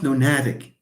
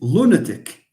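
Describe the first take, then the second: First: The stress is on the second syllable. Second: The stress is on the first syllable. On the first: The speaker calls it wrong. "It's not lunatic" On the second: The speaker calls it right. "the pronunciation is lunatic"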